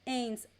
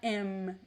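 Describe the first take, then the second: First: It ends in a nasal vowel, no M. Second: It ends with a closed M sound. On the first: The speaker calls it right. "we don't pronounce the M" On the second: The speaker calls it wrong. "It's not M"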